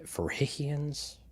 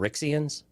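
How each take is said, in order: First: The x in the middle sounds like j. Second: The x in the middle has its usual sound.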